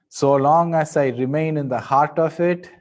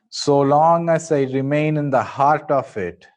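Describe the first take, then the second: The two takes are said the same way.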